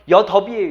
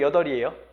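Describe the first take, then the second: First: A b sound follows the d sound. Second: No b sound follows the l sound. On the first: The speaker calls it wrong. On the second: The speaker calls it right.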